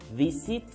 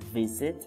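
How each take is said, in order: First: The middle consonant is a hissing s sound. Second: The middle consonant is a buzzing z sound. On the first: The speaker calls it wrong. "It is not wise, visit, or busy. No" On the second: The speaker calls it right. "it needs to vibrate ... we're going to pronounce like this"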